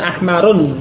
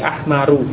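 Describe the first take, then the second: First: The word ends with an n sound. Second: The word ends in a vowel, no n. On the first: The speaker calls it wrong. "bukan ahmarun" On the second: The speaker calls it right. "tetapi ahmaru"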